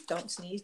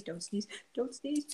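First: Holding back a sneeze, soft; fighting off a sneeze under the breath; about to sneeze. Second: Slow, pleading, trying not to sneeze; begging a sneeze to stay away; about to sneeze. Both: Real, not acted. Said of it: "I sneezed".

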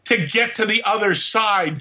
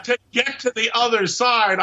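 First: Alien voice. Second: Higher alien voice, laughing it out; the alien cracks up at his joke. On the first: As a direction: play the alien telling a joke. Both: Acted. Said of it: "I laugh with my alien voice".

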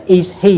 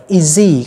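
First: "is he" as two words with a clear H; careful, separated "is he"; unlinked, H sounded. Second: "is he" run together as i-ZEE; "is he" said as one word, izzy; linked, H dropped. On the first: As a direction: keep the H in "he". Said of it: "không còn nghe là". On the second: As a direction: link the Z of "is" onto "he", no H. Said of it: "nối cái âm giờ ở phía trước". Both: Shown as a demonstration.

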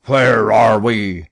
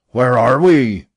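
First: Slow, loud furious demand; captain Speedy's furious question; angry captain. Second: Louder still, red-faced shout; captain repeating in purple rage; furious repeat. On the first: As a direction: bark it out, barely holding the rage. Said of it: "his anger permitted him to utter". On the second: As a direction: spit the question out in a fury. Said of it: "he repeated with purple face". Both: A narrator's reading.

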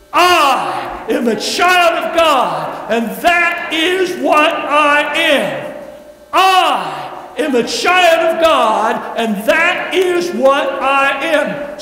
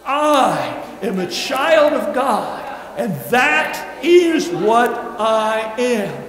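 First: Loud, slow, bold declaration. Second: Said in the usual way. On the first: Shown as a demonstration. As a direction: proclaim it like you mean it. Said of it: "We want to say it with boldness". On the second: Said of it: "Say it with me".

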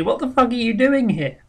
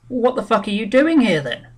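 First: The assessor's question mocked higher and louder, stressing fuck; imitating him with a higher, louder stab on fuck; rude assessor again. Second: A higher, louder mock of the assessor's rude question; hammed-up blunt official, higher and louder. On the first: Retelling the assessor's jab to the claimant, higher and louder. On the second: Assessor to claimant, a louder, higher mock of his contempt.

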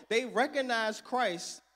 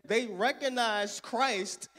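Both takes have the same delivery.

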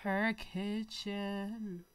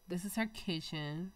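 First: "Her kitchen" stretched very slow; drawn-out. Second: Said in the usual way. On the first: Shown as a demonstration. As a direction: savor each word of "Her kitchen".

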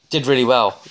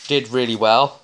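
The two takes are said the same way.

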